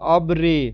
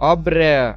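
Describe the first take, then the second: First: The vowel after r sounds like 'ee'. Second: The vowel after r sounds like 'e'. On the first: The speaker calls it wrong. "উচ্চারণটা আবার কিন্তু আবার এরকম হবে না" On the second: The speaker calls it right. "অব্রে এভাবে উচ্চারণ হবে"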